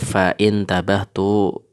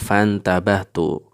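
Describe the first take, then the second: First: A glottal stop separates 'fa' from 'intabahtu'. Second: 'Fa' runs straight into 'ntabahtu' without a stop. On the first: The speaker calls it wrong. "dia tidak kita baca fa'in tabahtu" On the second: The speaker calls it right. "maka dia tidak dibaca, sehingga fan tabahtu"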